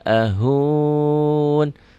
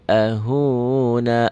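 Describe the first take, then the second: First: The word ends on the consonant n. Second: The word ends with a final vowel sound. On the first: The reader stops at this point. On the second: The reading continues on to the next letter.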